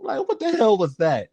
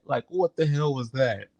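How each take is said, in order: First: A higher, disbelieving Bernie voice; Bernie Mac impression. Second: Said in the usual way. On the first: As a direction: put on Bernie's baffled tone. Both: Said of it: "Bernie Mac was like".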